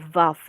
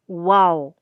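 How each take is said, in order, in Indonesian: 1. Nama huruf itu diawali dengan bunyi v. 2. Nama huruf itu diawali dengan bunyi w. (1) "kalau Ibrani modern dibacanya bisa Vav" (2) "kalau Ibrani kuno itu tidak mengenal Vav, yang mengenalnya Waw"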